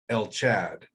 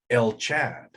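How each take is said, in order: First: The second word begins with a ch sound. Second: The second word begins with a ch sound.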